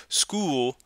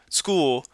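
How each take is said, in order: Both takes have the same delivery.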